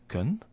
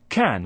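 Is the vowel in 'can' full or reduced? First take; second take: reduced; full. First: The word has a weak, reduced vowel. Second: The word has a full, strong vowel. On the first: "We may hear the weak form" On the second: "which is a strong way of pronouncing that word"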